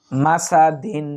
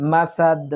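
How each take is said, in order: First: Said in the usual way. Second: মাসাদ ending on a bounced d, no "in"; qalqalah at a pause. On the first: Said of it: "দাল দুই জের দিন". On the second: Shown as a demonstration. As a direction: stop on মাসাদ with an echoing দ. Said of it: "তাহলে এখানে উচ্চারণটা হবে".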